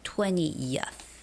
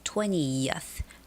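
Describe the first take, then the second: First: A y glide is heard before the ending. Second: A y glide is heard before the ending.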